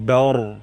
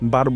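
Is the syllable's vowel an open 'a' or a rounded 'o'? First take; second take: rounded o; open a. First: The syllable has a rounded 'o'-like vowel. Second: The syllable has an open 'a' vowel. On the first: The speaker calls it right. "বা চিকন রমোটা" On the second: The speaker calls it wrong. "বার বলবো না"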